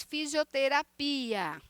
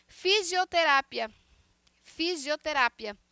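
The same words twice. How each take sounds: First: "fisioterapia" slowly stressed on PI; Portuguese stress on PI. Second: "Fisioterapia" stressed on RA, with short -pia; Spanish stress on RA. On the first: Teacher showing Portuguese, "fisioterapia" drawn out on PI. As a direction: stretch PI in "fisioterapia". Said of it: "Em português". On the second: Teacher asking students to hear the difference, "fisioterapia" stressed on RA. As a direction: punch RA in "fisioterapia". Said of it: "escutem bem a diferença da pronúncia". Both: Shown as a demonstration.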